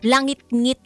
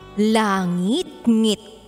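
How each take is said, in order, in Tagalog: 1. Ang salita ay binibigkas na may karaniwang diin. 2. Ang unang bahagi na 'langit' ay malakas ang diin. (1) "Alam ko naman paano i-pronounce yun" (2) "In-emphasize ko lang yung langit dun sa langit-ngit"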